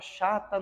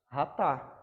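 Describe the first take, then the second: First: The word begins with a soft sh sound. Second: The word begins with a throaty guttural sound. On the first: The speaker calls it wrong. "já vi alunos reproduzir, falando assim" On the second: The speaker calls it right. "ela sai com som de dois R's, ó, esse C H"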